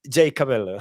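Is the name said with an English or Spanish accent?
English. The name is said with an English accent. This is the name for an international audience. "we should change the pronunciation for all the international audience"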